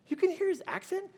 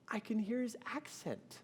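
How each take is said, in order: First: High, loud, quick question; retold disbelief, voice shooting up; incredulous echo. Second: High, small awed voice; softly choked-up, pitched high; retold tearful wife. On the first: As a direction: act out an astonished husband. Husband astonished by wife's claim. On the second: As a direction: imitate wife overcome and tearful. Tearful wife explains to husband.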